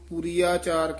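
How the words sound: The two words are run together. The speaker calls it wrong. "ਕਈ ਇਹਨੂੰ ਪੂਰੀ ਆਚਾਰ ਕਹਿ ਜਾਂਦੇ ਹਨ। ਇਕੱਠਾ"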